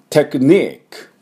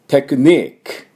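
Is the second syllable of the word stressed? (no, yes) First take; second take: yes; yes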